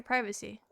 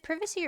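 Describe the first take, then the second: First: "privacy" said as PRY-vuh-see, long i like in "private"; first vowel as "eye": "privacy" = PRY-vacy. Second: "privacy" said as PRIV-uh-see, short i like in "privy"; first vowel short: "privacy" = PRIV-acy. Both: Shown as a demonstration. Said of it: "Is it privacy or privacy".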